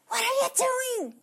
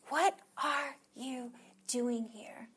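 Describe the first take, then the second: First: It is said loudly and harshly, like scolding. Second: It is said quietly and gently, with tenderness. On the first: The speaker is angry at being disobeyed. "you're like" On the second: The speaker cares and gently invites reflection. "God spoke to him in that precious and tender voice"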